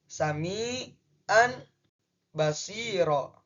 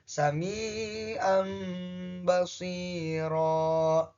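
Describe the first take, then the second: First: The first word ends with a clear n sound. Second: The first word ends with an m sound. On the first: "di sini contohnya sami'an basiro" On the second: "tanwinnya digantikan dengan uh, mim"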